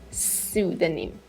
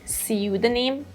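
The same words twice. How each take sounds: First: It is said with an American accent. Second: It is said with a British accent. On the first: "the American pronunciation is" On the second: "The British pronunciation is"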